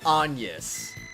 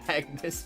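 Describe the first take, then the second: First: The middle sound is a 'ny' sound, no hard g. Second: The middle sound is a hard g followed by n. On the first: The speaker calls it wrong. "I refuse to pronounce that Anyas. ... That should not be pronounced like that" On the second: The speaker calls it right. "I consistently called that character Agnes because it just doesn't work"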